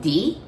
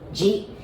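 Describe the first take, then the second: First: The syllable begins with a d sound. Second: The syllable begins with a j sound. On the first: The speaker calls it wrong. "you might want to pronounce it like D I, like D" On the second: The speaker calls it right. "we pronounce it like J I"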